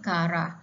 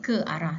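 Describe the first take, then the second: First: The start is one merged syllable, ka. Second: The start has two separate syllables, ke and a. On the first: The speaker calls it wrong. "sebaliknya dia bunyi karah" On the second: The speaker calls it right. "tak adalah dia jadi bunyi ke arah"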